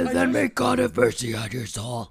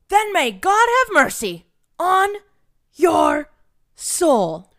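First: It is said in a deep, booming manly voice. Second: It is said in a lighter, less manly voice.

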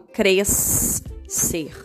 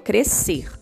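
First: An extra S sound is heard before the C. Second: No extra S sound is heard before the C. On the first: The speaker calls it wrong. "Eu não falo crescer" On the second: The speaker calls it right. "eu falo crescer. Então, o som do S não aparece"

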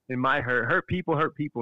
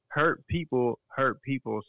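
First: The phrase is said quickly. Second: The phrase is said slowly.

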